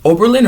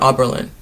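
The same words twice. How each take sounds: First: "Oberlin" with a long OH at the start; long O pronunciation. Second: "Oberlin" with an open AH at the start; open AH pronunciation. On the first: Recalling how to pronounce the college, "Oberlin" as OH-ber-lin. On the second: Questioning how to pronounce the college, "Oberlin" as AH-ber-lin. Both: Shown as a demonstration. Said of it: "they told me how to pronounce it".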